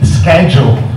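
The word begins with an 'sk' sound. "in the United States it's actually schedule"

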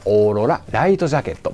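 The name is broken up by a short pause. This way the name is easier to say. The speaker calls it right. "ここで区切ると言いやすいですね"

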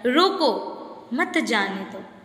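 There is a pause after रोको.

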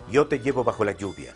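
The y and ll sound soft, like y. This is the neutral Spanish used for all countries. The speaker calls it right.

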